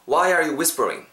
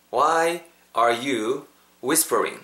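First: Said in the usual way. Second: Slow, word-by-word delivery with gaps; drawn-out teaching pace; slow model. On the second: Shown as a demonstration. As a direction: model "Why are you whispering" slowly for learners to repeat. Teacher models sentence for repetition.

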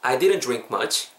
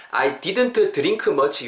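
First: "I didn't drink much" run together, no T in "didn't"; "I didn't drink much" as one natural phrase, "didn't" reduced to "didn"; joined-up pronunciation. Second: "I didn't drink much" with full T and K, syllable by syllable; "I didn't drink much" in careful, drawn-out Korean-style syllables; every sound spelled out. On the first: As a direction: link "I didn't drink much" smoothly, "drink" starting like a J. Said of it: "합쳐, 합쳐서 제가 발음해 볼 테니까". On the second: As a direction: say "I didn't drink much" slowly, each consonant given its own syllable. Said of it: "요렇게 생겨 먹었는데요".

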